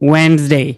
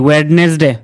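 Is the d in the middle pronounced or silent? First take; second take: silent; pronounced. First: The d is silent, said as Wensday. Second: The d and middle e are pronounced. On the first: The speaker calls it right. "এখানে ডিটা হচ্ছে silent" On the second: The speaker calls it wrong. "আমরা কি বলি?"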